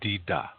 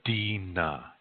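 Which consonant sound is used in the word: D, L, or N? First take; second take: D; N. First: The word is said with D sounds. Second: The second consonant is an N sound. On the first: This is the Dakota dialect form. "Dakota people say dida" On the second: This is the Nakota dialect form. "Nakota people say dina"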